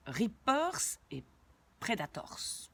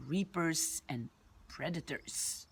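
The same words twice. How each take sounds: First: "Reapers" and "Predators" said the French way, ending in a French -ors; "Predators" with French r and a full "-tors"; French-style pronunciation. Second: "Reapers" and "Predators" said the English way, slowly; "Predators" with English vowels and a reduced "-ters" ending; English pronunciation. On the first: Names first said the French way. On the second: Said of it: "on va les prononcer à l'anglaise". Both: Shown as a demonstration.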